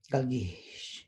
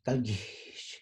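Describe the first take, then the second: First: "galgish" repeated, falling; Zapotec word repeated. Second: "galgish" with falling tone; Zapotec word. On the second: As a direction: say "galgish" with a fall. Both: Shown as a demonstration. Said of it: "join me in saying the words".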